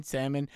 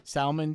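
First: "salmon" said as SAM-un; silent L. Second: "Salmon" said as SAL-mun, L heard; sounded L. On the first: Showing a friend the pronunciation, "salmon" said with silent L. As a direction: drop the L from "salmon" entirely. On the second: Showing how it gets pronounced, "Salmon" said with audible L. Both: Shown as a demonstration. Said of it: "how do you pronounce it?".

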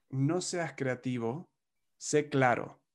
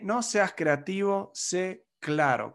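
First: Said in the usual way. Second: "no seas creativo, sé claro" drawn out slowly, "no" higher; slow emphatic advice. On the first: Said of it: "Otro punto es". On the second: Shown as a demonstration. Coach repeating his key tip to the audience, slow and emphatic. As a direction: spell the rule out slowly, word by word.

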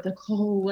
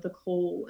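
First: "call" drawn out with weight; emphasis on CALL. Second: Said in the usual way. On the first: Shown as a demonstration. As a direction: lean heavily into the word "call". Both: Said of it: "put such emphasis on that word".

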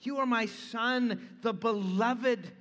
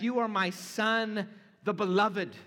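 First: Slower, stress on "are" and "beloved"; slow emphatic reading. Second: "You" and "beloved" pressed louder; emphatic reading. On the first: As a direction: savour each word of the declaration. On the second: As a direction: read it with Greek emphasis. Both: Shown as a demonstration. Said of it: "the original Greek is even more emphatic".

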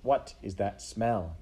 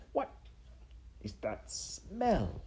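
First: Said in the usual way. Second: Slow, halting question, swooping up on smell; puzzled sniffing. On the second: Acted. Rat sniffs at the mouse's whiskers, puzzled and slow. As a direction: break after "what", then stretch "smell" wonderingly. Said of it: "Roscuro sniffed".

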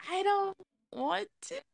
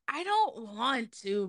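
First: High, drawn-out scared whine. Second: Said in the usual way. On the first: Real, not acted. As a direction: whine like you're dreading it. Dreading the photos.

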